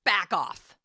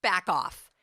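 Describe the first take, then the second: First: Firm, louder back off; sharp, louder dismissal; attitude. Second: Loud, firm back off; louder firm brush-off; attitude. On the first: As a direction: push the critic away firmly. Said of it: "this attitude thing of going". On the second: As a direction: shove it away with your voice. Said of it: "You gotta get an attitude like this". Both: Shown as a demonstration.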